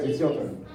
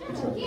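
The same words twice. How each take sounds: First: Said in the usual way. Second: Higher and softer, rising; higher playful reminder. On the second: Shown as a demonstration. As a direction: coax them with a higher voice.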